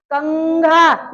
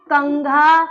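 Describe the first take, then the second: First: "कंघा" very slowly, कं humming through the nose; nasal sound. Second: Said in the usual way. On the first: Shown as a demonstration. Teacher shows where anusvar sounds, drawn-out nasal कं in "कंघा". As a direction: stretch the nasal ं in "कंघा" before घा. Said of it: "नाक से ध्वनि आ रही है".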